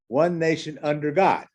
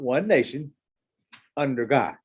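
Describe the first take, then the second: First: It flows without a pause before "under God". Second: There is a pause before "under God".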